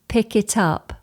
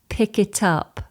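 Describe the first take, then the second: The two takes are said the same way.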